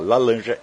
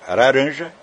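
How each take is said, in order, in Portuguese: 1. A palavra é dita com sotaque chinês imitado. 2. A palavra é dita com sotaque japonês imitado. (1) "Se ele falar lalanja, ele é chinês" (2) "se ele falar laranja, ele é japonês"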